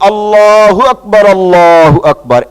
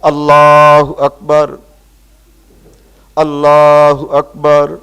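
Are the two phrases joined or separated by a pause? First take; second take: joined; separated. First: The two phrases are joined without a pause. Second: The two phrases are separated by a pause. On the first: The speaker calls it right. "একসাথে" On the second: The speaker calls it wrong. "ছেড়ে ছেড়ে যদি বলে"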